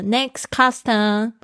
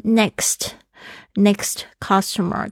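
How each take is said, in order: First: The final st sound in next is dropped. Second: The final st sound in next is pronounced.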